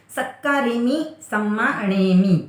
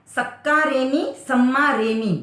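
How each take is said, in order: First: सक्का रेमी सम्मा अणेमी said slowly with अणेमी kept distinct; slow careful सम्मा अणेमी; correct pronunciation. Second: सक्का रेमी सम्मा रेमी with both halves made alike; mock the common slip सम्मा रेमी; imitating the mistake. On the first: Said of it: "आपकी ये अशुद्धियाँ न हो". (सही उच्चारण, धीरे, सम्मा अणेमी साफ़) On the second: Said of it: "तो दोनों सिमिलर कर देते हो". (ग़लती की नकल, दोनों को एक जैसा बोलना) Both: Shown as a demonstration.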